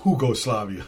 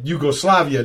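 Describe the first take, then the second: First: The word begins with an H sound. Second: The word begins with a Y sound. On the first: The speaker calls it wrong. "not Hugoslavia" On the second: The speaker calls it right. "we said Yugoslavia"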